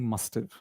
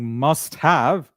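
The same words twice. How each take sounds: First: The words are blended into the contraction must've. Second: Both words are said fully and separately. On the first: "start saying must have" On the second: "instead of saying must have"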